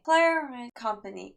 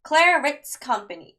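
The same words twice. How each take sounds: First: It is said quietly and hesitantly. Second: It is said loudly and confidently. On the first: The reader is unsure of the pronunciation. The speaker calls it wrong. "조그맣게" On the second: The reader sounds sure of the pronunciation. The speaker calls it right. "자신감 있게"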